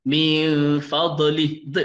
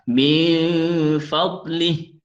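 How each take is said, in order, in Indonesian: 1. Konsonan itu dilepas dengan bunyi tambahan. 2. Konsonan itu ditahan tanpa bunyi tambahan. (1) "itu taulid. Itu lebihan dia yang sepatutnya kita buang" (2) "Kena tahan"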